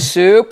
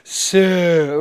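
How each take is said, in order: First: The pitch rises on the word. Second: The pitch drops on the word. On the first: The speaker is still thinking it over. The speaker calls it wrong. "if you go up, you go soup" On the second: The statement is final, not a question. The speaker calls it right. "So let it go. Really drop it"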